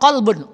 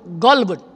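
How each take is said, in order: First: The word begins with a back K-like sound. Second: The word begins with a G sound. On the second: "Kof dibaca dengan G"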